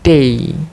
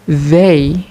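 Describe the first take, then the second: First: The word starts with a d sound. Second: The word starts with a voiced th sound. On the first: The speaker calls it wrong. "The learners say they" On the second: The speaker calls it right. "as in the word they"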